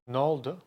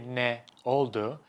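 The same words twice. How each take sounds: First: The phrase is said shortened. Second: The phrase is said in full. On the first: "We just say" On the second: "We don't say"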